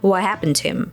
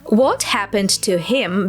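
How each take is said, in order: First: The words run together, with the T and H dropped. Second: Each word is said fully and separately.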